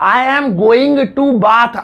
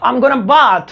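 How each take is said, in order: First: It is said with the full form 'going to'. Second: It is said with the reduced form 'gonna'. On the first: "पहले कैसे बोलते थे" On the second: "गोइंग टू को short में slang कर दिया, गोना कर दिया"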